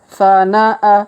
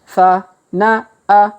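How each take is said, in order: First: The syllables are read quickly, run together. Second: The syllables are read slowly, one by one. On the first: "Kalau dipercepat" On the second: "kita baca pelan-pelan"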